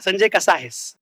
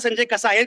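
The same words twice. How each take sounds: First: It is said in a sweet, dreamy way. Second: It is said in a plain, neutral way.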